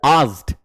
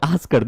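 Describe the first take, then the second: First: The ending is a bare consonant, no syllable. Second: The ending is said as an extra syllable. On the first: The speaker calls it right. "This is आस्ड" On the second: The speaker calls it wrong. "This is not आस्कड"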